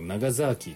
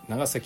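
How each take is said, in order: First: It is said with a z and long vowels. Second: It is said with a plain s and short vowels.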